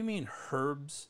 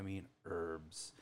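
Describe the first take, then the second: First: "herbs" with an audible H; H sounded in herbs. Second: "herbs" with no H sound, starting on the vowel; silent H in herbs. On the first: Cheeky student querying the teacher's word, "herbs" with a sounded H. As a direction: say "herbs" with the H pronounced. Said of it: "I did the silent H". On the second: Teacher answering the student, "herbs" with the H left silent. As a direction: drop the H from "herbs". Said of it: "we do not pronounce the H here". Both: Retold or imitated.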